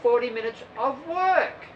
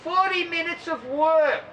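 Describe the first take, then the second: First: Plain level call, weight on "work"; stress on work. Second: Higher, drawn-out instructor call; aerobics teacher call. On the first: Shown as a demonstration. Coach correcting the aerobics call, stressing "work". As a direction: say "Forty minutes of work" flat and firm, landing on "work". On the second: Retold or imitated. Aerobics teacher calling out to the class, slow and high. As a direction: sing it out like a gym class teacher. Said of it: "the aerobics teacher over there yell out".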